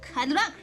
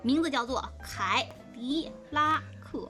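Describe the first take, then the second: First: It is said quickly. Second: It is said very slowly.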